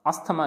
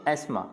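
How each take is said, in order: First: अस्थमा with the TH sounded; mispronounced अस्थमा. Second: एस्मा with silent TH; correct pronunciation एस्मा. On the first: Teacher repeating what not to say, अस्थमा with TH. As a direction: say अस्थमा as as-tha-ma. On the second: Teacher giving learners the right form, एस्मा without TH. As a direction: say एस्मा as ais-ma. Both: Shown as a demonstration. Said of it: "अस्थमा नहीं बोलेंगे".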